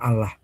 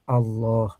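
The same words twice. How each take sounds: First: The word is said with a thin, light sound. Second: The word is said with a thick, heavy sound. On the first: The speaker calls it wrong. "bukan Allah" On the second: The speaker calls it right. "ngucapinnya Allah ... Tebal, ya tafkhim"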